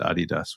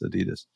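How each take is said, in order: First: Adidas is said with a British pronunciation. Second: Adidas is said with a non-British pronunciation. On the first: "I always used to pronounce it Adidas when I was in the UK" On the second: "I always have to remind myself that it's Adidas"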